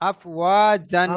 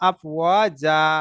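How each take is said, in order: First: The word ends with an n sound. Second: The word ends on a vowel, without n. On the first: This is the full written form, with the nunation sounded. "ও জান আছে" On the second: The reader stops at this word. "থামার জন্য আফ ও যা পড়তে হবে"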